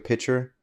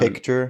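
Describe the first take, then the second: First: The k sound is dropped, like pitcher. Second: The k sound is clearly pronounced. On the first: The speaker calls it wrong. "people say take a pitcher" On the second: The speaker calls it right. "instead of that picture"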